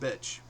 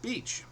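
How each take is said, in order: First: The word sounds like 'bitch'. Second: The word sounds like 'beach'. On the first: The speaker calls it wrong. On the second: The speaker calls it right.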